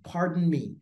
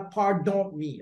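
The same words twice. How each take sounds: First: The second syllable of pardon sounds like 'dun'. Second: The second syllable of pardon sounds like 'don'. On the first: The speaker calls it right. "c'est dun, dun" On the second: The speaker calls it wrong. "Ne dites pas pardon me, ok? C'est pas don"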